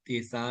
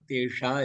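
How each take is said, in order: First: The middle consonant is a plain s sound. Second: The middle consonant is a sh sound. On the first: The speaker calls it wrong. "இல்ல" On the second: The speaker calls it right. "இல்ல ஷா"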